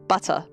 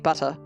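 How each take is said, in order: First: The middle t is softened, not a crisp t. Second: The middle t is said as a crisp t. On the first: "I just say butter" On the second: "If I say it with a T"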